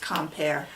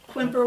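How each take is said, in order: First: The first syllable sounds like 'com'. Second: The first syllable sounds like 'kwim'. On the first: The speaker calls it right. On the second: The speaker calls it wrong.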